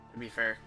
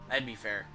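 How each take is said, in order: Both takes have the same delivery.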